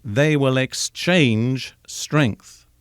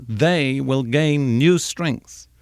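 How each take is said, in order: First: They will exchange strength, drawn out slowly, stress on "They"; slow down and weigh each word; slow emphatic quote. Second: They will gain new strength, each word drawn out slowly; slow emphatic quote. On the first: Giving the literal Hebrew to the congregation, slow and deliberate. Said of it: "The Hebrew says literally". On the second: Quoting Isaiah to the listeners, slow and emphatic. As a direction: lean on "new" and slow right down. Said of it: "Isaiah says". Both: Shown as a demonstration.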